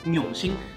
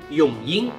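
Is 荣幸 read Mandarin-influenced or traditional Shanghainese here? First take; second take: Mandarin-influenced; Shanghainese. First: It is read with a Mandarin-influenced pronunciation. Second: It is read with the traditional Shanghainese pronunciation. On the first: The speaker calls it wrong. "他读的好像是永兴，永兴，那其实呢是有点错误的啊" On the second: The speaker calls it right. "荣幸应该是永英"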